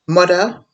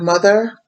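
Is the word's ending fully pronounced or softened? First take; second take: softened; fully pronounced. First: The ending of the word is softened. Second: The ending of the word is fully pronounced.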